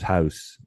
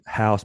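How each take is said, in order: First: It is said in a thick Southern accent. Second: It is said in a neutral American accent. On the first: "very thick sort of southern low country accent" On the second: "I don't talk like that now"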